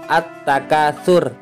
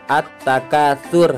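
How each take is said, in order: The two takes are said the same way.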